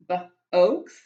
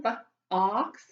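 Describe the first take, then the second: First: "b-oaks" with a long O, split b and oaks; long o sound. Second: "b-ox" with a short ah O, split b and ox; short o sound. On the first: Teacher shows kids a wrong long O. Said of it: "Hmm, that doesn't sound right". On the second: Teacher shows kids the right short O. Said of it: "ah sound". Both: Shown as a demonstration.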